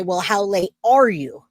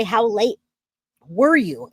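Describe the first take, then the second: First: "are" leaned on, falling; stress on are. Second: "were" leaned on, falling; stress on were. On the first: Asking a friend how late she is, stressing are. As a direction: punch the word "are", present tense. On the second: Asking a friend how late she was, stressing were. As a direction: hit the word "were", past tense. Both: Shown as a demonstration. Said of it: "There's a difference".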